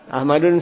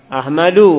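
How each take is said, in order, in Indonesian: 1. Kata ini berakhir dengan bunyi n tambahan. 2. Kata ini berakhir dengan vokal tanpa n. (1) "Ahmadun salah" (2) "Ahmadu, enggak boleh Ahmadun"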